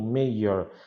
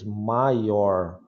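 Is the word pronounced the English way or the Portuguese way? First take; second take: English; Portuguese. First: It is pronounced with an English pronunciation. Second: It is pronounced like a Portuguese word. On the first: It means the head of a town. The speaker calls it right. "Se você pronuncia certinho" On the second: It sounds like a word meaning bigger. The speaker calls it wrong. "se você fala que nem no português"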